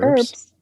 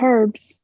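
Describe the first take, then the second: First: The word starts without an h sound. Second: The word starts with an audible h sound. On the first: The speaker calls it right. "You're not supposed to pronounce the H" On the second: The speaker calls it wrong. "not herbs"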